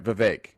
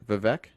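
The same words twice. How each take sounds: First: "Vivek" as vuh-VAKE, long ay in the second syllable; corrected pronunciation. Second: "Vivek" as vuh-VECK, short e at the end; unsure pronunciation. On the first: Host repeating the corrected name, "Vivek" as vuh-VAKE. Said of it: "Oh, that's right". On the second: Host asking viewers how to say it, "Vivek" as vuh-VECK. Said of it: "How do you say it?". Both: Shown as a demonstration.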